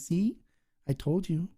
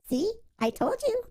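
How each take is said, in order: First: It is said in a normal voice. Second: It is said in a put-on high voice.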